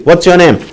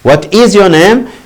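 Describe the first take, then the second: First: It is said quickly, with "what's" contracted. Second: Both words "what is" are said in full.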